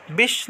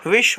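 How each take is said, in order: First: विष as "bish"; wrong b sound. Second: विष as "vish"; correct v sound. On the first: Teacher showing students the mistake, b substituted. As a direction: start विष with b. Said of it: "नहीं होता". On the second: Teacher giving students the right form, clear v. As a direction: start विष with v. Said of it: "होता है". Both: Shown as a demonstration.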